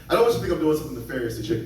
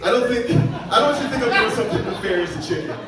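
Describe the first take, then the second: First: Very fast rush through the line; comic rushing the line as a retry. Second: Pushed higher and louder through laughter; comic straining higher, laughing at himself. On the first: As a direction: gabble it out fast. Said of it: "This is never gonna be high enough". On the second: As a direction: go up in pitch, laughing at yourself. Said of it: "never gonna be high enough". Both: Shown as a demonstration.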